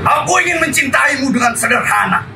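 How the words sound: It is read loudly, in a fiery, declaiming way. "dengan gaya kita adalah milik sah Republik ini"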